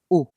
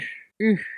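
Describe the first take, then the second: First: It is a back rounded vowel, like Spanish u. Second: It is a front rounded vowel, tongue as for i. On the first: The speaker calls it wrong. "pronunciamos U española" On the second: The speaker calls it right. "en francés la U se pronuncia U"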